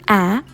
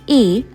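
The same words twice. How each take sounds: First: The vowel is the short sound, as in can. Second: The vowel is the long sound, as in cane. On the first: "a short sound A as in the word can" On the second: "a long sound A as in the word cane"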